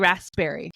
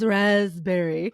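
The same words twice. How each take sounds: First: The P sound in the middle is pronounced. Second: The P sound in the middle is silent. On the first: "So it should it's really raspberry" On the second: "you don't pronounce the P in raspberry"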